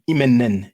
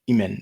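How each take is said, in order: First: The final 'en' sound is said twice. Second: The final 'en' sound is said once. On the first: The speaker calls it wrong. "you don't pronounce that imen, imenen" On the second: The speaker calls it right. "You just pronounce that imen"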